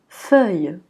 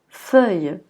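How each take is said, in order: Both takes have the same delivery.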